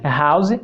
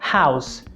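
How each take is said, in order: First: It starts with a vibrating, voiced sound. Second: It starts with a harsh sound, no vibration. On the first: The speaker calls it wrong. "ao invés de" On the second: The speaker calls it right. "você deve falar"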